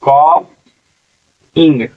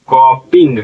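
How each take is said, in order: First: कॉपिंग drawn out very slowly, each sound stretched; slowed-down pronunciation. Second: Said in the usual way. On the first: Shown as a demonstration. Teacher to students learning spelling, very slow drawn-out कॉपिंग. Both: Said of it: "कॉपिंग".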